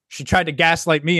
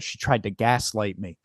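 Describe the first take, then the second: First: Said in the usual way. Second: "she tried to gaslight me" said low, soft and slow, each word weighed; deliberate emphasis. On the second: Shown as a demonstration. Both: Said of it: "I'm gonna say it".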